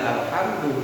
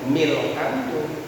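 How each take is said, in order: First: The word starts with a separate 'al' vowel. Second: The word starts with a linked 'mil' sound. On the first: The speaker calls it wrong. "tidak alhamdu bunyinya" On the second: The speaker calls it right. "milhamdu gitu"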